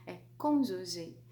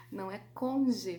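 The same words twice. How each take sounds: First: "cônjuge" said slowly and clearly, nasal "côn"; slow, careful "cônjuge" with the nasal vowel; correct pronunciation. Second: "conge" without the nasal, said as "conge"; the wrong "conge", nasal dropped; wrong pronunciation. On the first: ("cônjuge" pronunciado devagar, com "côn" nasal) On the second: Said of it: "Não é conge, viu?". (pronúncia errada "conge", sem o som nasal) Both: Shown as a demonstration.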